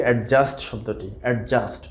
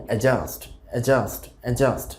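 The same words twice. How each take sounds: First: অ্যাডজাস্ট with a separate d, "ad-just"; common mispronunciation. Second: অ্যাডজাস্ট with silent d, "a-JUST"; correct pronunciation. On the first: Teacher shows the usual mistake, mispronounced. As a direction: sound the d in অ্যাডজাস্ট. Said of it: "অ্যাডজাস্ট উচ্চারণটা আসলে ভুল". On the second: Teacher models the word for learners, correctly pronounced. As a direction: go straight from "a" to j in অ্যাডজাস্ট. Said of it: "সঠিক উচ্চারণটা হবে". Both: Shown as a demonstration.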